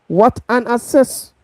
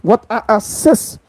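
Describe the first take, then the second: No difference in how they are said.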